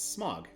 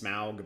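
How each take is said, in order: First: The name sounds just like 'smog'. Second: The name does not sound like 'smog'. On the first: "it's it's Smog. ... it's just spelled differently" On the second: "sometimes they pronounce it as Smaug, but I don't like it"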